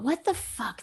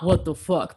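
First: It sounds amazed and delighted. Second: It sounds annoyed and negative. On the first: Something wonderful feels too good to be real. "but what the fuck? This is actually my life" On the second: Something bad or irritating has happened. "Not what the fuck"

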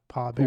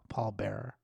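First: The first word sounds like 'paw', without an L. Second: The first word sounds like 'pall', with an L. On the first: The speaker calls it wrong. "like paw" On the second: The speaker calls it right. "Paul Pall Paul Bear"

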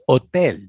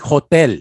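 First: The word starts directly with the vowel. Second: The word starts with an audible h sound. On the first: The speaker calls it right. "You don't pronounce the H" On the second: The speaker calls it wrong. "I used to say hotel and it's wrong"

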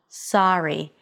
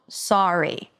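First: The first vowel is an open, unrounded 'ah'. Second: The first vowel is a more rounded 'aw'. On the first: "open your mouth for the ah, as in father vowel sound" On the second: "some people may pronounce that as a more rounded sound"

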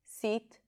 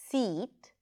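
First: The vowel is shorter and a little lower. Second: The vowel is long, high and tense. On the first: The speaker calls it wrong. "So it's a little shorter and lower than the tense E" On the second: The speaker calls it right. "the tense E"

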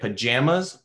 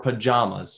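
First: The stressed vowel sounds like the one in jam. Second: The stressed vowel sounds like the one in father. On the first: "if you say it like jam jelly" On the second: "or do you say it like Jama?"

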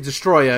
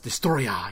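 First: The name is said plainly, without Japanese flavor. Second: The name is said with a heavy Japanese accent. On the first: The speaker calls it wrong. "You can't just say Destoroyah, because that just sounds lame" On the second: The speaker calls it right. "You gotta accent it a lot. You gotta Japanese it a lot"

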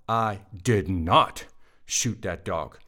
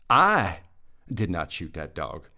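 First: The stress is on the word 'not'. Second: The stress is on the word 'I'. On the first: The speaker denies shooting the dog. "That's a denial. I did not" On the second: Someone else shot the dog. "I didn't shoot it. Somebody else did"

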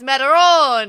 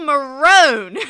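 First: It is said with Italian-style vowels. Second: It is said like the English word maroon. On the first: "no, it's Marone" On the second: "I do it in my accent"

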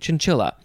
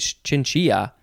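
First: The double L sounds like an L. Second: The double L sounds like a Y.

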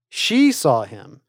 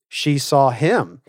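First: The word 'she' carries the pitch accent. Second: The word 'him' carries the pitch accent. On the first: It answers who saw him. "Who saw him?" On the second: It answers who she saw. "who did she see?"

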